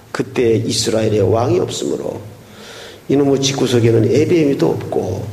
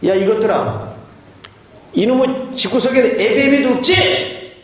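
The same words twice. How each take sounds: First: Low, hushed, sorrowful reading; sad tone. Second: Put-on high, scolding old father; angry father. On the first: Shown as a demonstration. Pastor reading Judges' last line in a sad whisper. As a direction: sigh it out like a grieving father. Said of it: "매우 슬픈 어조로". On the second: Father scolding the fighting couple, raised pitch. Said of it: "이 아버지 하시는 말씀이".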